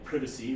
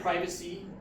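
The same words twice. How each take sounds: First: It is said in a British Commonwealth accent. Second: It is said in a non-British accent.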